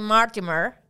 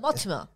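First: It is said with an American accent. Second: It is said with a British accent.

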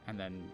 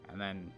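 Both takes have the same delivery.

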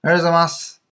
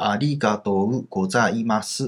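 First: It is said in one flowing, rhythmic stretch. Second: Each syllable is said separately, one at a time.

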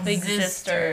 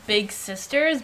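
First: The middle consonant is a buzzing z sound. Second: The middle consonant is a plain s sound. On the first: The speaker calls it right. "I need you to emphasize the Z" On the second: The speaker calls it wrong. "Y'all always say big sisters"

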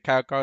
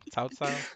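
First: It sounds like the English word cow twice. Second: It has a Mandarin-like vowel and tones. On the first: The speaker calls it wrong. "You don't say it, cow cow" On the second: The speaker calls it right. "It's supposed to be Cao Cao"

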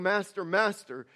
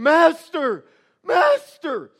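First: It is said in a calm, even tone. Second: It is said with panicked, incredulous fear.

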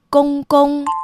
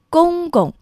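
First: The second syllable keeps the full first tone. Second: The second syllable is in the light neutral tone. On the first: The speaker calls it wrong. "而不是公公" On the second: The speaker calls it right. "正确的读音应该是轻声公公"

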